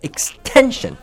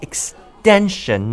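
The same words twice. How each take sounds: First: The middle consonant sounds like a T. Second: The middle consonant sounds like a D. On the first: The speaker calls it wrong. "not extension" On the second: The speaker calls it right. "There is a T in extension, but it sounds like D. That's right. It's more like extension"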